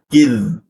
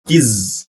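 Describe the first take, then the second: First: The consonant is a th sound at the teeth. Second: The consonant is a buzzing z sound. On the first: The speaker calls it right. "Yang benar ada kid. Menggunakan the, ujung lidah tempelkan di gigi" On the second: The speaker calls it wrong. "Jangan sampai menjadi kiz"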